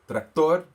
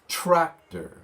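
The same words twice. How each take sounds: First: The stress is on the second syllable. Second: The stress is on the first syllable. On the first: The speaker calls it wrong. "You don't want to say tractor. ... No" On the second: The speaker calls it right. "The accent is at the beginning of the word"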